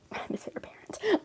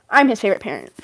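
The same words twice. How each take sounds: First: Breathy whispered repeat, half to herself; conspiratorial whisper; whispered aside. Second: Said in the usual way. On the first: Real, not acted. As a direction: drop to a secret whisper.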